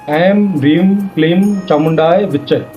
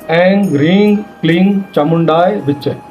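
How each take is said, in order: First: The nasal syllables end with an m sound. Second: The nasal syllables end with an ng sound. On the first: "तो इसमें म लग गया।" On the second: "और अगर आपको ग लगाना हो तो फिर सब में ग लगना चाहिए।"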